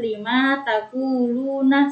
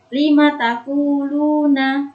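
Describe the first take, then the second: First: The vowel after the m is drawn out. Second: The vowel after the m is short. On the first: The speaker calls it wrong. "bukan lima taquluna, salah" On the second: The speaker calls it right. "Yang benar"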